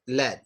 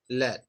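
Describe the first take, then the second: No difference in how they are said.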